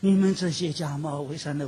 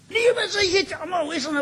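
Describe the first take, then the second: First: It is said softly, with gentle warmth. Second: It is said harshly, with angry force. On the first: The aim is to bring them to repent. The speaker calls it right. "温柔一点" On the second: The aim is to condemn them. The speaker calls it wrong. "咬牙呲这个吹胡子瞪眼睛"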